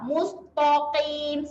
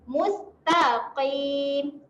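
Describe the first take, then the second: First: The 't' sound is thick and heavy. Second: The 't' sound is thin and light. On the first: The speaker calls it wrong. "salah eh" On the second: The speaker calls it right. "baru betul bunyi dia"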